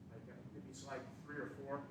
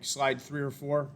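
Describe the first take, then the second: First: Muffled and distant, away from the mic. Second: Slow, clear repeat up close. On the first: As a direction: say it turned away from the microphone. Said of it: "I'm muffled". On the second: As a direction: spell it out slowly for the listener. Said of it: "I'm away from the, the microphone". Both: Real, not acted.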